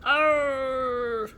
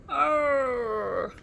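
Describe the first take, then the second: First: Loud, higher growling cry; a bigger, louder moan of pain from the bush. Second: Short loud growl from a hidden dinosaur; a shuddering growl from inside the bush. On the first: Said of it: "but louder this time". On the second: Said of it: "shuddered the bush". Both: A narrator's reading.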